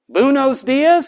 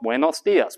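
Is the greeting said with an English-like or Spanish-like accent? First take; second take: English-like; Spanish-like. First: It is said with English-like sounds. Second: It is said with native Spanish sounds. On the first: The speaker cannot hear the new sounds. The speaker calls it wrong. "can't hear new phonemes" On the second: This is the correction. The speaker calls it right. "No, no"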